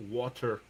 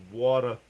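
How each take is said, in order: First: Said in the usual way. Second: "Water" as "waw-tuh", final r dropped; New York accent on "Water". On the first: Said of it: "Excuse me". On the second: Shown as a demonstration. Showing the accent after laughing, New York "waw-tuh". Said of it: "New York has a little bit of the same accent".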